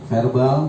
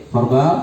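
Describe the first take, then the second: Both takes have the same delivery.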